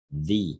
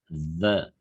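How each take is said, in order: First: The vowel is a long 'ee' sound. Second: The vowel is a short, neutral 'uh' sound.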